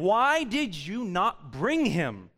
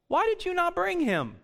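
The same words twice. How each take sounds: First: Slow, weighed restating of the question; preacher repeating the Pharisees' demand slowly; slow reread. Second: Much higher, sharp indignant demand; indignant Pharisees. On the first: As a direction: lay each word out slowly. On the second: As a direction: fire it up as an outraged question. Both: Acted.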